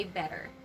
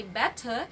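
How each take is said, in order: First: BETTER with d-like t, final r; soft flapped T. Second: BETTER with hard t, ending uh; strong T, no r. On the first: Teacher modelling for students, American flapped BETTER. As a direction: say BETTER as "bedder". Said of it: "but we say better". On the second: Teacher showing students what to avoid, crisp r-less BETTER. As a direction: say BETTER as "bet-tuh". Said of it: "We don't say better". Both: Shown as a demonstration.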